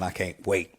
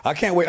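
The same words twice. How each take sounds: First: Said in the usual way. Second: Much higher and louder, bursting with eagerness; eager burst. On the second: Real, not acted. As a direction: say it like you can hardly hold still. Eager about coming back.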